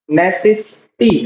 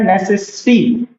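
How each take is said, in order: First: नेसेसिटी said slowly so the double s in the middle is clear; teacher drawing out नेसेसिटी slowly; slow clear demo. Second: Said in the usual way. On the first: Shown as a demonstration. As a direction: spell out नेसेसिटी slowly for the class, stressing the middle सेस. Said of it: "सेस, बीच में". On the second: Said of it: "double एस आ रहा है".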